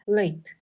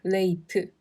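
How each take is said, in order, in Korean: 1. 첫 번째 모음이 두 번째 모음보다 강합니다. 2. 두 모음이 같은 박자와 세기로 발음됩니다. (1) "앞의 모음을 뒷 모음보다 상대적으로 강하게" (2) "같은 박자로 레이트 라고 또박또박 발음하는 게 아니라"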